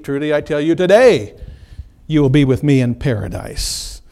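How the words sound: The pause comes after the word today.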